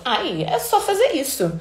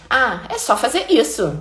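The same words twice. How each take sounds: First: Smug, dismissive, with a little laugh; condescending. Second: Said in the usual way. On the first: Retold or imitated. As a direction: toss it off like a know-it-all with a neck wiggle. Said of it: "Aí tem a cara, mexidinha de pescoço". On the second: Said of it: "tudo bem que tem a entonação".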